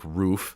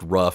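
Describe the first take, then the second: First: The vowel is long, like in 'moon'. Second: The vowel is short, like in 'cup'. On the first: The speaker calls it right. "It's probably like roof" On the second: The speaker calls it wrong. "it's probably not pronounced rough"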